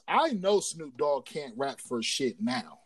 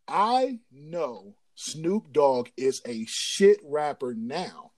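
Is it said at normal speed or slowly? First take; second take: normal speed; slowly. First: It is said at normal speed. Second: It is said slowly and deliberately.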